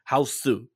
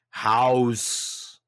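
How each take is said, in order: First: It is said with Japanese syllables, ha-o-su. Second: It is said as one English-style syllable. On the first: "That film in Japanese would be Haosu" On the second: "In the trailers"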